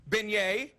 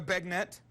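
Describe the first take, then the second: First: Beignet as ben-YAY; right pronunciation. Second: Bagnet as BAG-net; wrong pronunciation. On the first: Host listing misspoken foods: beignet as ben-YAY. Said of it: "We know it's beignet". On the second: Host mocking the misreading: bagnet as BAG-net. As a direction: say bagnet flatly, as it is spelled. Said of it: "It's not". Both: Shown as a demonstration.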